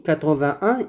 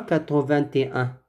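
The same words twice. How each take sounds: First: Quatre-vingt-un with no « et » before un; sans « et ». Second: Quatre-vingt-et-un with a wrongly inserted « et »; added « et ». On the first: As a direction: say quatre-vingt-un, joining vingt straight to un with silent t. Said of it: "on dit quatre-vingt-un et non pas". (quatre-vingt-un prononcé sans « et », t muet) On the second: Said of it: "et non pas quatre-vingt-et-un". (quatre-vingt-et-un, faute avec « et » ajouté et t prononcé) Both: Shown as a demonstration.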